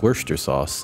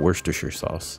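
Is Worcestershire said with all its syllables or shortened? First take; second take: shortened; all syllables. First: Several written syllables are dropped from the word. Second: Every written syllable of the word is pronounced. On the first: The speaker calls it right. "It's Worcestershire sauce" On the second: The speaker calls it wrong. "It's not Worcestershire sauce"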